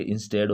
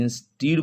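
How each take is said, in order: First: इंस्टेड said with a short e; correct pronunciation instead. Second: इंस्टीड said with a long ee; wrong pronunciation instead. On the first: Teacher giving the right way, इंस्टेड with short e. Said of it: "जबकि होता क्या है". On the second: Teacher showing the wrong way, इंस्टीड with long ee. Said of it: "इंस्टीड नहीं". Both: Shown as a demonstration.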